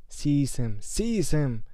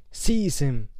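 First: Shriek. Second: Loud screamed order. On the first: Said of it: "shrieked Voldemort again". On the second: Voldemort ordering Quirrell with a loud scream. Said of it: "Voldemort screamed". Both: Acted.

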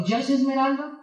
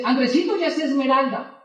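First: "esmeralda" turned into a doubting question; questioning tune on "esmeralda"; incredulous question. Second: "ya es esmeralda" told as settled news; plain declarative tune on "esmeralda"; matter-of-fact statement. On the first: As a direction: echo "Ya es esmeralda" as if unable to believe it. Teller questions the news in disbelief. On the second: Friend reports news as statement. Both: Retold or imitated.

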